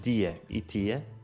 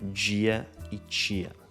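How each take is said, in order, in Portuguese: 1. O t antes de i continua a ser um som de t simples. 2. O t antes de i soa como ch. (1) "nós dizemos" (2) "no Brasil eles dizem"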